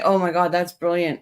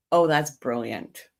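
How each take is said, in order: First: Said in the usual way. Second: Slow, understated sarcastic praise. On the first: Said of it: "being sarcastic. I'll say". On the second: Shown as a demonstration. Streamer showing her chat how she says brilliant, sarcastic. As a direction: give it a little sarcastic tone. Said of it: "being sarcastic ... Give it a little tone".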